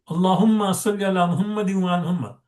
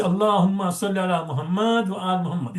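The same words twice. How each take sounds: First: "Muhammadin" with its in ending, linked straight into "wa"; correct unpaused joining. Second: "Muhammad" missing its in ending, run into "wa"; common mistake. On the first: Shown as a demonstration. Teacher showing the salawat rightly, "Muhammadin" joined without pause. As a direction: run "Muhammadin wa" together, sounding the case ending. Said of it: "if you don't pause". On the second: Retold or imitated. Teacher imitating people's mistake, bare "Muhammad" with no pause. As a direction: drop the ending on "Muhammad" yet keep going. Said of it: "So people say".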